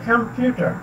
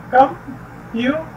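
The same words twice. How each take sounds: First: computer read whole, weight on PYU; com-PYU-ter, middle syllable stressed in computer; stress on second syllable. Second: computer broken into three slow syllables with pauses; split into syllables. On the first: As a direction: join up computer and hit the middle. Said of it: "जिसको stress किया जाता है". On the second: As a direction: say computer piece by piece, com, pu, ter. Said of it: "तकसीम करना है". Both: Shown as a demonstration.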